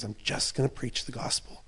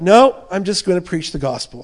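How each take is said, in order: First: Softer whisper of the same vow; whispered resolve. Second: Louder, firm "No" up front; firm declaration. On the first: Preacher voicing Paul's inner vow, a soft whisper. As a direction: breathe it as a private promise. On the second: Preacher voicing Paul refusing temptation, firm and louder. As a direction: plant your feet on "No". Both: Acted. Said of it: "And Paul's like".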